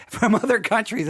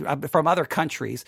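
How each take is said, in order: First: "From other countries" retaken higher through a laugh; laugh, then say "From other countries" again with care; careful rewording. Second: Said in the usual way. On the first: Shown as a demonstration. Host rewording for listeners from Europe, laughing. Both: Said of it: "I gotta be very careful how I say it".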